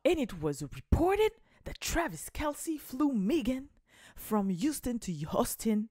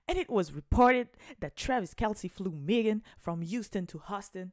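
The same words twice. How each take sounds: First: Slow, stiff English read with a heavy French accent; reading the English article to fans in a clunky English accent; clumsy English accent. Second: The redo, a cleaner American English read; redoing the English line to fans with a better American accent; smoother English accent. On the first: Accent anglais maladroit et appuyé. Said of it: "mon accent était chiant". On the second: Meilleur accent américain, plus fluide. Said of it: "Non, je refais". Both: Shown as a demonstration.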